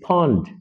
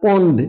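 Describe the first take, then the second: First: The p is aspirated with a puff of air. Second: The p is plain, without a puff of air. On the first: The speaker calls it right. "Bangla ফ এর সঠিক উচ্চারণটা" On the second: The speaker calls it wrong. "It's not পন্ড"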